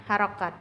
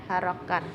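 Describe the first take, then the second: The two takes are said the same way.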